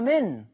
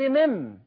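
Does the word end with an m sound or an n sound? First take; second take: n sound; m sound. First: The word ends with an n sound. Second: The word ends with an m sound. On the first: This is the word's original written form. "ده هو أصلها من" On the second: The noon has been turned into a meem in speech. "أنت قلت مم"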